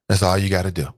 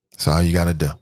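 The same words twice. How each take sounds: The two takes are said the same way.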